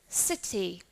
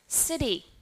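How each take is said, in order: First: The middle t is a clear t sound. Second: The middle t is a soft d-like flap. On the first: "this word in British English we will pronounce as city" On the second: "And how about American English?"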